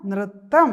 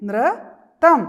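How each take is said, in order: First: Said in the usual way. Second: High, much louder model of നൃത്തം; teacher models നൃത്തം for the children; loud model word. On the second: Shown as a demonstration. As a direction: call out നൃത്തം slowly for the class. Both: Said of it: "അപ്പോൾ പറഞ്ഞേ".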